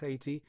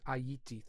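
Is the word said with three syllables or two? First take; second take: two; three. First: The word is said with two syllables. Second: The word is said with three syllables. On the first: The speaker calls it wrong. "It never was Haiti" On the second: The speaker calls it right. "three syllables"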